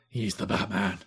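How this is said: It is said in a put-on, non-whispery voice. The speaker calls it wrong. "He doesn't really do that voice"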